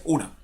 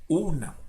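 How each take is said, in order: First: Said in the usual way. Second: "una" drawn apart into u and na; paused between syllables. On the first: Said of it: "No, no dice una". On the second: Shown as a demonstration. Teacher correcting the joined version, "una" split by a pause. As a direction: put a small pause inside "una". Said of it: "realizar como esa pequeña pausa".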